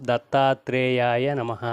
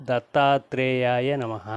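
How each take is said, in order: The two takes are said the same way.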